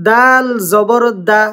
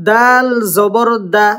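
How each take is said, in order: No difference in how they are said.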